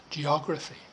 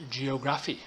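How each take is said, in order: First: Said in the usual way. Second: GEOGRAPHY said as jee-oh-GRAF-ee; mispronounced geography. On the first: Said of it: "so pronounce words accurately". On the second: Retold or imitated. Teacher showing students their mistake, geography mispronounced as jee-oh-GRAF-ee. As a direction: put the stress late in geography, jee-oh-GRAF-ee. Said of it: "you need to stop saying".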